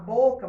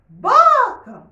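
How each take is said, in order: First: The word is spoken plainly at normal volume. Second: The word is called out loudly, as if calling. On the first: "Em vez de você falar boca" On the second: "você vai chamar boca"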